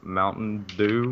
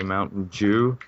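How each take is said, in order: First: The second word begins with a plain d sound. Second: The second word begins with a j-like sound. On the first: This is how it is said elsewhere. "instead of saying Mountain Dew" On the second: This is how it is said locally. "here, we say Mountain Dew"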